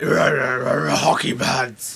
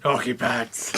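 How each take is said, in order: First: Very slow, louder grumbly Batman. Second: Grumbly Batman voice. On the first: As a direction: drag it out in a grumbly growl. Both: Retold or imitated. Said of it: "Batman with his grumbly voice like".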